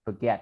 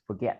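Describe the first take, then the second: First: Forget with a weak schwa first syllable, fuh-GET; right forget. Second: Forget with a full "or" vowel, /fɔɹ/; wrong forget. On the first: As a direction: reduce the "or" in forget to "uh". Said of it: "mình sẽ nói là forget". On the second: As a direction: say forget stressing the first "or" sound. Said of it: "thì mình không nói là forget". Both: Shown as a demonstration.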